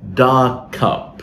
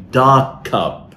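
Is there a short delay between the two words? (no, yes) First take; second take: yes; yes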